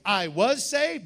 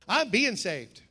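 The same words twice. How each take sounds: First: "saved" leaned on, slow and falling; stress on saved. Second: "being" weighted against "was"; stress on being. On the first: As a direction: press the word "saved" as a done deal. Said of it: "but today I'm being saved". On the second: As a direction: lean on "I'm being" as ongoing. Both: Shown as a demonstration.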